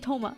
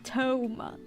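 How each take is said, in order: First: The first vowel is short. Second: The first vowel is drawn out long. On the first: The speaker calls it right. "it's supposed to just be Toma" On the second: The speaker calls it wrong. "not Toma"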